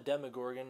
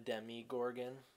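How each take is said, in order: First: The first part is said as 'demo'. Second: The first part is said as 'demi'. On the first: The speaker calls it right. "it's called a Demogorgon" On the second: The speaker calls it wrong. "not a Demigorgon"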